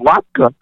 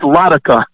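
First: The word is said as two syllables. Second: The word is broken up into three syllables. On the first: "no, latka" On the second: "I broke it up and I pronounced it, you know, as written"

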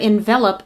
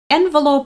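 First: It is pronounced the way the verb is. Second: It is pronounced the way the noun is. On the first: It means to wrap or surround something. "but envelope is a verb" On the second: It names a paper wrapper for letters. "envelope is a noun"

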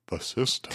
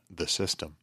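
First: It is said in a Hank Hill voice. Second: It is said in his normal voice.

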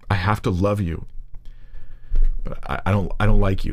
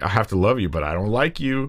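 First: It is said hesitantly, with halting repeats. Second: It is said bluntly, without hesitation.

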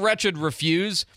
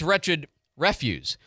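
First: The stress falls on the second syllable. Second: The stress falls on the first syllable. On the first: It is a verb: to turn something down. The speaker calls it wrong. "It's not wretched refuse" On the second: It is a noun: rubbish or waste. The speaker calls it right. "It's wretched refuse"

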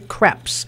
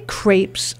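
First: The vowel sounds close to 'crap'. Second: The vowel does not sound like 'crap'. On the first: The speaker calls it wrong. "it sounds more too much like crap" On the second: The speaker calls it right. "So I say crepes"

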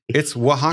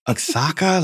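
First: It is not sounded out as spelled. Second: It is sounded out letter by letter. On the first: The speaker calls it right. "It's not actually that. Oh, no, it's Oaxaca" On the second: The speaker calls it wrong. "I'm definitely saying that wrong"

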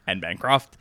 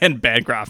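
First: The name is pronounced in an odd way. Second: The name is pronounced in a normal way. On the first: The speaker calls it wrong. "not Anne Bancroft" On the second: The speaker calls it right. "It's just Anne Bancroft"

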